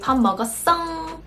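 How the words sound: It is said in an exaggerated, cutesy voice. "Like very exaggerated cutesy type"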